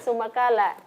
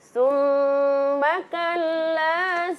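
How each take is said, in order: First: The doubled consonants are rushed and blurred. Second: The doubled consonants are held clearly. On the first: The speaker calls it wrong. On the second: The speaker calls it right.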